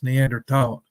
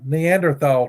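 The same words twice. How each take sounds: First: The end is said with a plain 't' sound. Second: The end is said with a 'th' sound. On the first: The speaker calls it right. "tall, I think, but I think the H is silent" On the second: The speaker calls it wrong. "I'm not pronouncing Neanderthal correctly"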